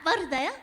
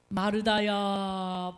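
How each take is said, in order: First: It is called in a soft, sweet, affectionate voice. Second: It is called in a deep, booming, solemn voice. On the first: A boyfriend is calling. "아우 이거 너무 간지럽다" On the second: An old mountain spirit is calling. "이렇게 산신령처럼 부르실 것 같지는 않아요"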